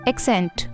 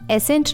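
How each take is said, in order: First: It has a k sound before the s. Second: It has no k sound before the s. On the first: The speaker calls it right. "इसे हम बोलते हैं एक्सेंट" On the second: The speaker calls it wrong. "इसे हम एसेंट नहीं बोलते"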